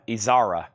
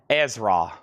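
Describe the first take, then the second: First: The name is said with three syllables. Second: The name is said with two syllables. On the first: The speaker calls it wrong. "I think I used to say Better Than Izara" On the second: The speaker calls it right. "there we go"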